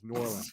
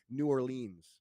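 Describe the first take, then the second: First: It is said the way locals say it. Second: It is said the way outsiders say it. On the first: The speaker is from the area. The speaker calls it right. "It's New Orleans" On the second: The speaker is not from the area. The speaker calls it wrong. "you're not from around these parts, are you?"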